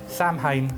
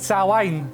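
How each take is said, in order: First: The word is said in an American way. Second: The word is said in a non-American way. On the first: The speaker calls it wrong. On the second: The speaker calls it right.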